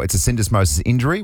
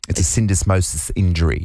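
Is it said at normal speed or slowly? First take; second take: normal speed; slowly. First: It is said at normal conversational speed. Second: It is said slowly and deliberately.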